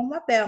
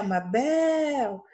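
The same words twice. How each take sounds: First: Said in the usual way. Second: "Mabel" called slowly with a drawn-out final BEL; calling the word. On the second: Shown as a demonstration. Teacher shows pupils the last-syllable stress, calling "Mabel" with BEL stretched. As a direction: hold the BEL of "Mabel" long. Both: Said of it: "é o bel que se estende".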